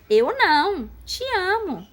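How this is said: There is a pause after não.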